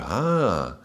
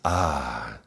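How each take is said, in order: First: It sounds surprised and full of wonder. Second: It sounds relaxed and calm.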